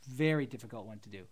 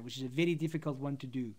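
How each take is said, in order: First: Said in the usual way. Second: South African accent with a tapped R in "very"; conversational South African English. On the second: Shown as a demonstration. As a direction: say "very" like "viddy", South African style. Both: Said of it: "South African accent".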